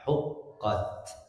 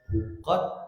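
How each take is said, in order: First: The final t ends with a light breath release. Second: The final t ends without any breath release. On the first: The speaker calls it right. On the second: The speaker calls it wrong. "kalau tidak keluar keliru juga ... keliru"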